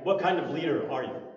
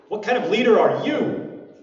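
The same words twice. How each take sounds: First: It sounds like a sincere, neutral question. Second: It sounds like a doubting, challenging question.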